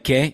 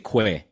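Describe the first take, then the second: First: It is said with no w sound after k. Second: It is said with a w sound after k. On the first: The speaker calls it right. "like que" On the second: The speaker calls it wrong. "you don't say que"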